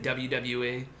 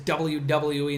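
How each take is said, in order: First: The letters are said in a casual, reduced way. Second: Each letter is carefully and fully enunciated. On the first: It is the ordinary everyday way of saying it. "instead of W W E" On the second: It imitates a formal broadcasting voice. "The way that he says W W E"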